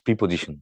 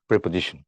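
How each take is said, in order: First: The first syllable has an 'ee' vowel. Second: The first syllable has an 'eh' vowel. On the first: The speaker calls it wrong. "It not প্রিপোজিশন, P না" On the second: The speaker calls it right. "It's প্রে, প্রেপোজিশন"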